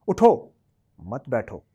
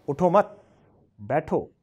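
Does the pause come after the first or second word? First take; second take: first; second. First: The pause comes after the first word. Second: The pause comes after the second word.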